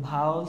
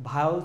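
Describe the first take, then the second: Both takes have the same delivery.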